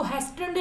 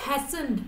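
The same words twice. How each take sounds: First: "hastened" with a sounded T; T wrongly pronounced. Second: "hastened" without any T sound; silent T. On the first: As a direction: say "hastened" as HAS-tend, voicing the written T. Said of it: "इसको hastened नहीं बोलेंगे". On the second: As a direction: drop the T in "hastened", leaving just the S before the final syllable. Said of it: "इसको बोलेंगे hastened". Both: Shown as a demonstration.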